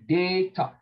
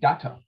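First: The first vowel sound is long. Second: The first vowel sound is short. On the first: "we say data" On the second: "In America, they call it data because the first vowel sound has a short sound"

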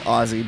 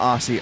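First: The middle consonant is a z sound. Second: The middle consonant is an s sound. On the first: The speaker calls it right. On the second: The speaker calls it wrong. "not Aussie"

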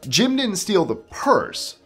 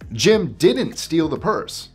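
First: The stress is on "purse". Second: The stress is on "didn't".

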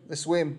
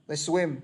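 Both takes have the same delivery.

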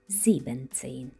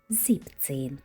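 First: The first part is said in full, two syllables. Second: The first part is shortened to one syllable. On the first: The speaker calls it wrong. "замість" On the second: The speaker calls it right. "а 17"

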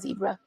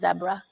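First: It is said with an American accent. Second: It is said with a British accent.

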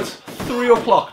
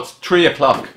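First: It sounds posh, with a soft 'th' sound. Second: It sounds plain, with a hard 't' sound. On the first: The speaker sounds upper-class. The speaker calls it wrong. "because it sounds very posh" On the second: The speaker sounds ordinary and Irish. The speaker calls it right.

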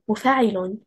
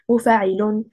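First: Stress falls on the fa syllable only. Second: Stress falls on the mim and lam syllables.

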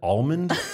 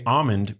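First: The L sound is pronounced. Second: The L sound is left out. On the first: "Are you supposed to pronounce the L in almond? That sounds weird to me" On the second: "I'm deliberately leaving out the L"

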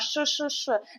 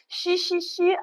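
First: The sh sound is hard, with no i-like glide. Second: The sh sound is softened, with an i-like glide. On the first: The speaker calls it right. "а ш-ш-ш" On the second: The speaker calls it wrong. "Не ші-ші-ші"

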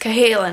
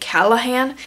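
First: The L sound comes after the H sound. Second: The L sound comes before the H sound. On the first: The speaker calls it right. "but it's Cahalan" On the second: The speaker calls it wrong. "I always feel like the L comes before the H and I say Callahan"

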